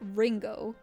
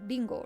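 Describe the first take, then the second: First: The word starts with an English R. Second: The word starts with a quick tapped R. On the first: The speaker calls it wrong. "So it's not Ringo. That's a R" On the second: The speaker calls it right. "it's a Spanish R pronunciation"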